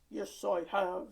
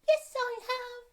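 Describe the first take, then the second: First: It is said in a low, grumpy voice. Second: It is said in a high, squeaky voice. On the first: "Have you have you bought your grumpy voice?" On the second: "Have you have you bought your squeaky voice?"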